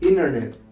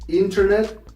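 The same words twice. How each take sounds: First: The T after the N is dropped. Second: The T after the N is clearly pronounced. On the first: "you say internet" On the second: "Instead of internet"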